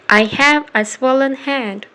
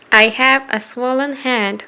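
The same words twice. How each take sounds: The two takes are said the same way.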